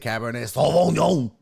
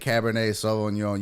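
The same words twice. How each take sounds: First: The name is said in a fancy, affected way. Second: The name is said in a plain, ordinary way. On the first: The speaker calls it right. "You have to say it like that because it's fancy" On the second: The speaker calls it wrong. "You don't just say"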